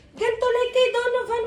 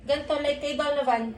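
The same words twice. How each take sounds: First: High, louder exasperated repeat; raised voice. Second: Said in the usual way. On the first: Real, not acted. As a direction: raise it, losing patience.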